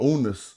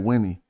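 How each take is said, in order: First: The name starts with a U vowel sound. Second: The name starts with a W sound. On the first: It follows one older transliteration system. "if you under Budge talk" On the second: It follows the standard academic transliteration. "the standard academic thing"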